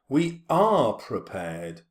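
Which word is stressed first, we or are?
are. It starts unstressed, with the stress on are. The line is forced into the regular meter. "iambic pentameter starts with an unstressed syllable and then stressed. To read it that way, we'd have to say"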